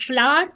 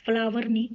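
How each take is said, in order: First: "फ्लावर" clipped to one syllable, flar, rising; "फ्लावर" said short as flar; right flower. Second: "फ्लावर" said as two syllables, flaa-war; teacher shows the word "फ्लावर" as not to say it; wrong flower. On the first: Teacher to class, giving the right way: "फ्लावर" short as flar. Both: Shown as a demonstration.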